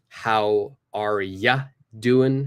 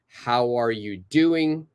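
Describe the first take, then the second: First: 'You' is reduced to 'ya' and the g is dropped. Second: Every word is said in full, including 'are you'.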